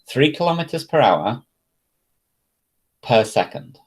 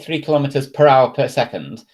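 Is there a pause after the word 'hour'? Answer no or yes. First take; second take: yes; no. First: There is a pause after the word hour. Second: It runs on with no pause after hour. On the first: The speaker calls it right. "just remember to pause when you're pronouncing it" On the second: The speaker calls it wrong. "if you just say three kilometers per hour per second, that just sounds weird"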